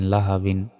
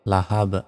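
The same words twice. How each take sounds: First: Said in the usual way. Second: "লাহাব" cut at a bounced final b, no "in"; stopped ending. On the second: Shown as a demonstration. Teacher shows the pause form, "লাহাব" with bounced b. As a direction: stop on the b of "লাহাব" with a slight echo. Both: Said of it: "থামলে".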